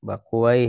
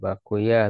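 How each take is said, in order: First: The name ends with a 'wai' sound. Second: The name ends with a 'yah' sound. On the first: This is the reading language scholars prefer. "ahli bahasa lebih eh, senang dengan wai" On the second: This is the reading hadith scholars prefer. "kalau ahli hadis lebih suka eh, Bakuyah"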